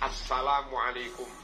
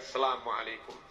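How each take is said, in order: First: Every sound is pronounced clearly and fully. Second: Some sounds are dropped or blurred. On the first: The speaker calls it right. "Baca dengan sejelas-jelasnya" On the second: The speaker calls it wrong. "Bukan sekedar"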